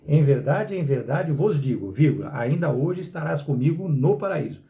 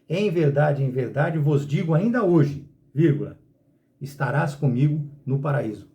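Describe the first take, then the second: First: The pause comes after 'vos digo'. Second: The pause comes after 'ainda hoje'.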